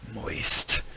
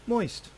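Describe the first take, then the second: First: The word is said in a sultry, suggestive way. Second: The word is said in a plain, neutral way. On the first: "that hits you so differently, the second one. ... way more sexually slated" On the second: "You could say it this way"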